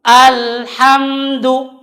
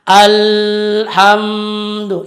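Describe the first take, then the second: First: Alhamdu with slightly flowing m; alhamdu, m flows a little. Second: Slow alhamdu, m not flowing; wrong alhamdu. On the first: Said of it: "ada sedikit mengalir". (alhamdu dengan mim sedikit mengalir) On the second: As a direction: alhamdu stopped hard. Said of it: "tidak boleh juga membaca". (alhamdu salah) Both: Shown as a demonstration.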